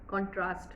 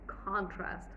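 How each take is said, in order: First: The stress is on the second syllable. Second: The stress is on the first syllable. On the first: This is how Indian speakers say it. The speaker calls it wrong. "for us in India" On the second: This is how it is supposed to be said. The speaker calls it right. "That's first syllable stress"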